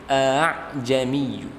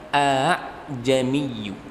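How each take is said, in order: Both takes have the same delivery.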